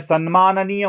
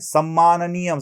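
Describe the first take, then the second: First: The cluster is said with an 'n' then 'm'. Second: The cluster is said as a doubled 'm'. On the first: The speaker calls it right. "ते सन्माननीय म्हणत नाहीत" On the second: The speaker calls it wrong. "सम्माननीय सम्मानीय म्हणतात, म्हणजे हेही उच्चारण चुकीचंच आहे"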